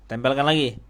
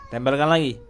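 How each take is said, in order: No difference in how they are said.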